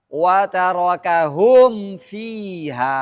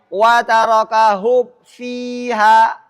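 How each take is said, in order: First: The m is clearly voiced with closed lips. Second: The m is barely heard before the f. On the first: The speaker calls it right. "maka bunyi mimnya harus kentara, harus tampak, tidak boleh samar" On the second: The speaker calls it wrong. "harus jelas jangan sampai wa tarakahum fiha"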